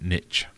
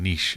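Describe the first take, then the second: First: Niche is said in the American way. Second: Niche is said in the French way. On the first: The speaker calls it wrong. "a lot of Americans ... say niche" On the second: The speaker calls it right. "instead of saying niche"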